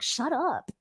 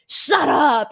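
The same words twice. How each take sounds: First: It sounds nervous and rattled. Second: It sounds confident and self-assured.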